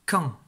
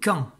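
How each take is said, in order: First: Quand repeated short and firm; repeated dictation word. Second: Quand said short and crisp, a little louder; dictation word. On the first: Teacher repeating the syllable for pupils, crisp. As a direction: say Quand once more, crisp. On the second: Teacher dictating the syllable to pupils, crisp. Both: Shown as a demonstration. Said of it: "tu écris la syllabe".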